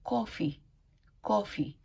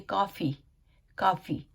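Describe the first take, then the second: First: कॉफ़ी with a rounded "aw"; correct pronunciation. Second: कॉफ़ी with an open "aa"; common local pronunciation. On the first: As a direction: model कॉफ़ी as "kaw-fee". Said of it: "उसका सही pronunciation है". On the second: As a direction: say कॉफ़ी as "kaa-fee". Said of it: "जैसे हम लोग बोलते हैं". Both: Shown as a demonstration.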